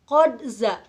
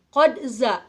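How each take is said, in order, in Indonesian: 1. Bunyi "q-d" diucapkan dengan jelas sebelum "za". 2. Bunyi "q-d" diucapkan dengan jelas sebelum "za".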